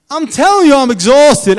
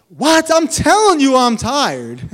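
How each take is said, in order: First: Laughing protest. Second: Much higher, louder indignant complaint; exasperated protest. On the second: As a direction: protest to God that you're worn out. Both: Retold or imitated. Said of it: "I'm like".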